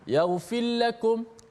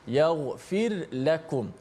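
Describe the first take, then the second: First: The r is swallowed and merged into the l. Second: The r is sounded clearly before the l. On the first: The speaker calls it wrong. "menenggelamkan huruf ra, seakan-akan ra itu diidghamkan ke dalam la" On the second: The speaker calls it right. "ra tu bila mati kena bunyilah ra mati"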